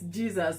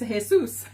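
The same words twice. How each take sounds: First: The name is pronounced the English way. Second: The name is pronounced a non-English way. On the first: The speaker calls it wrong. "The Anglicized version is Jesus" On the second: The speaker calls it right. "but it's Jesus"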